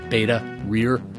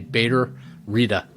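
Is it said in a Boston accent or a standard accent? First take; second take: standard; Boston. First: It is said without a Boston accent. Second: It is said with a Boston accent.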